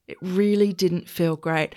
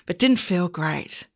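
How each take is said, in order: First: Slow, heavy emphasis on "really"; stress on really. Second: Said in the usual way. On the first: Real, not acted.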